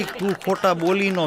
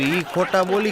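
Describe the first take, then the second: First: Slow, laughing, leaning on તું; stress on તું. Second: Said in the usual way. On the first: Shown as a demonstration. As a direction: drag out તું ખોટા બોલી as the punchline. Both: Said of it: "મેં કીધું".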